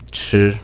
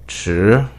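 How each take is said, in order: First: The pitch stays high, level and long. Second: The pitch rises from middle to high. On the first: It means to eat. "The first tone is high and level. You could try to pronounce it stable and long" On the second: It means late. "The second tone starts medium in tone and then reaches the peak"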